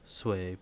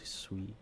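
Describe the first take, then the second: First: The word sounds like 'sway', one syllable. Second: The word sounds like 'soo-ee', two syllables. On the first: This is the official pronunciation. "the pronunciation is Sway" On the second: This is how most people say it. "everyone, including myself, just says Sui"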